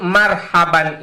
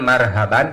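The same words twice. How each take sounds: First: The h is a tense, throaty pharyngeal h. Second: The h is a light, plain breathy h. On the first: It means a warm welcome. The speaker calls it right. "Yang disebut marhaban itu" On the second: It means terror. The speaker calls it wrong. "Jangan pakai hayam mata kucing itu. Jangan marhaban"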